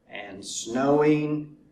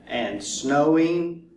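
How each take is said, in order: Both takes have the same delivery.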